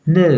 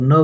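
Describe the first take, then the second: First: नो said "nəu", with a gliding vowel; British "no". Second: Said in the usual way. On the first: Shown as a demonstration. Teacher models British English for students, British "no". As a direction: glide from "uh" to "oo" in नो. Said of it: "British जो pronunciation है वो होता है". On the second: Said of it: "हम लोग नो बोल देते हैं".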